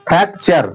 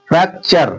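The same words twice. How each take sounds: Both takes have the same delivery.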